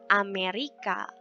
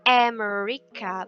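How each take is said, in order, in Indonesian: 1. Diucapkan dengan bunyi bahasa Indonesia. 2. Diucapkan dengan bunyi bahasa Inggris. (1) "bukan Amerika" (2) "dibacanya America"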